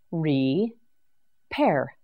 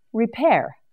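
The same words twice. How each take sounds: First: Re-pair split into two slow separate beats; syllable by syllable. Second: Said in the usual way. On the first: Shown as a demonstration. Teacher sounding out Re-pair for learners, syllable by syllable. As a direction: break Re-pair apart so learners hear each part. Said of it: "syllable by syllable demo". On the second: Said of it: "whole word after syllables".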